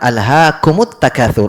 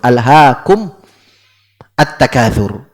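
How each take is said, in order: First: The m takes a u vowel, linking the words. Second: The m has no vowel after it. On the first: This is how the verse is actually read. "Kalau dibaca alhaakumut takatsur" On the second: This is the word's original form before joining. "itu mimnya asalnya disukun"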